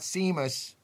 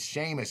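First: The name begins with an s sound. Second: The name begins with a sh sound. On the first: The speaker calls it wrong. "not Seamus" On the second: The speaker calls it right. "S-E-A-M-U-S is Seamus"

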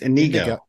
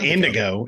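First: The name is said without a d sound. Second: The name is said with a d sound. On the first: The speaker calls it right. "It's Inigo" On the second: The speaker calls it wrong. "It's not Indigo"

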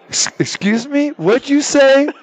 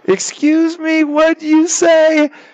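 First: It is said in his normal voice. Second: It is said in a put-on elderly woman's voice.

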